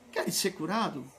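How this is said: The question sounds soft and gentle. A kind, meek figure asks it. The speaker calls it right.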